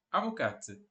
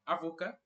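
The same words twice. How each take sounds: First: "avocate" with sounded final t; lower, falling "avocate", t released; feminino com t. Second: "avocat" softer, ending in ka; quiet rising "avocat", silent final t; masculino sem t. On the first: ("avocate" com t final bem pronunciado) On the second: ("avocat" mais baixo, sem t final) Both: Shown as a demonstration. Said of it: "A pronúncia vai mudar um pouco".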